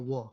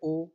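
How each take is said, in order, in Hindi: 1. यह व्यंजन w की ध्वनि से शुरू होता है। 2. यह सादे स्वर की ध्वनि से शुरू होता है। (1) "उच्चारण हो रहा है वो, ये तो कॉन्सोनेंट हो गया" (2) "कभी कह रहे ओ"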